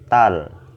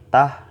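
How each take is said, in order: First: The syllable ends with a clear l sound. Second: The syllable ends without an l sound. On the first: The speaker calls it right. "tapi tal" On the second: The speaker calls it wrong. "nggak dibaca tah"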